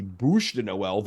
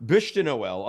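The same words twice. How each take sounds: First: "Bouche" with an OO vowel, drawn out; mock "Bouche de Noël", saying "Bouche" like "boosh"; Dave's mispronunciation. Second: Said in the usual way. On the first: Host teases Dave over his French, mispronouncing "Bouche" with a long OO. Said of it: "if you're Dave, as the". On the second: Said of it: "otherwise known, if you're Dave, as".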